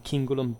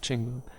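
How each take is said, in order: First: The first consonant is said hard. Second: The first consonant is said softly. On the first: This follows the earlier classical pronunciation. "otherwise it would have been Cingulum" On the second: This follows the later Roman church pronunciation. "I'm using, by the way, for today's video, the ecclesiastical pronunciation"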